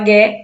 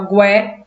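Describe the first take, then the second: First: The u is silent after the g. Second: A u sound is heard after the g. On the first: "o U não é pronunciado" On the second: "esse U é pronunciado"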